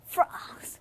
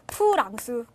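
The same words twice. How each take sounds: First: It begins with the upper teeth on the lower lip. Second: It begins with a closed-lip P sound. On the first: This is the original foreign pronunciation. "이 윗니가 아랫입술을 깨물면서 나는 소리란 말이야" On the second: This is the adapted Korean pronunciation. "우리말 들어와서 어떻게 됐지? 프랑스 이렇게 됐단 말이지"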